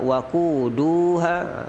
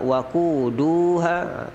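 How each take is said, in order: First: The syllable 'du' is long. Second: The syllable 'du' is long.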